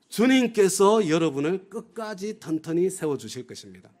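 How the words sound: The stress is on 주님께서.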